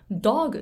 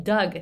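First: Dog said with a rounded "o" like the animal; mispronounced as dog. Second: Doug with the open "ah"-like vowel, said as in "daag"; the name Doug said with a wide open vowel, as the teachers said it; correct Doug. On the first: Retold or imitated. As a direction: Doug turned into Dog, the round-vowel mistake. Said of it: "Dogって呼んでたんですね". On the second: Shown as a demonstration. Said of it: "みんながDougって呼んでいても".

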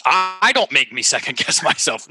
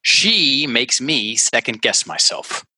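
First: Higher and hesitant, stumbling on I; 1 hesitant higher take. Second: Said in the usual way. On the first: Shown as a demonstration. Coach tries the translated sentence in an unsure voice. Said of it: "translated sentence with I". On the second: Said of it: "blaming sentence read out".

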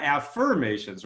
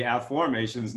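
First: "affirmations", the usual "firm" sound; "affirmations" with a clear "firm" in the middle. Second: "afformations", stressing the "form" sound; "afformations" with the F-O-R-M clearly heard. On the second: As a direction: say "afformations" with "aff" like "after" and "form" like "formation". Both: Shown as a demonstration. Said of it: "not affirmations".

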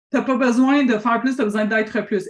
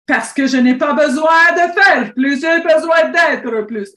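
First: Said in the usual way. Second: Loud, slow, higher-pitched Russian accent. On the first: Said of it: "prendre mon accent russe pour te dire ça". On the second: Shown as a demonstration. Coach drives home her message to a client, in a Russian accent. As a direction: proclaim it slowly in a put-on Russian accent. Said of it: "j'aime bien ça prendre mon accent russe pour te dire ça".

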